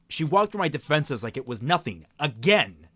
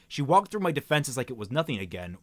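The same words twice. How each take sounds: First: There is a pause before a stressed 'again'. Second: It runs straight on with no pause before 'again'.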